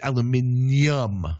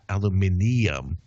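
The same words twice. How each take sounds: First: It ends with a 'nyum' sound, like Spanish ñ. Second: It ends with a separate extra 'ee' syllable. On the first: "akin to Spanish-speaking languages adding a tilde to the letter N" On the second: "They're not adding like an extra I in there"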